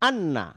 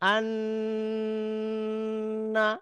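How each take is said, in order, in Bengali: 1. দ্বিত্ব নুনটি নাসিক্য গুঞ্জন ছাড়া সংক্ষেপে কেটে দেওয়া হয়। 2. দ্বিত্ব নুনটি দীর্ঘ নাসিক্য গুঞ্জন দিয়ে ধরে রাখা হয়। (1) "তাহলে এটা হবে ভুল।" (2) "এটা হচ্ছে সঠিক উচ্চারণ।"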